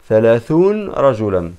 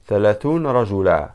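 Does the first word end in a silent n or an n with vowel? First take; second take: silent n; silent n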